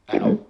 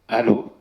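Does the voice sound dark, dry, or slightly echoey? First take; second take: dark; dry. First: The voice sounds deep and dark. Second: The voice sounds plain with no echo. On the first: "on a la voix, la voix un peu dark" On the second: "on a zéro écho. Donc, on va dire que c'est le mode standard"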